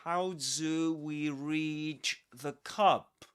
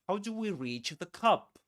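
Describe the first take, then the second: First: It is said slowly. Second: It is said faster.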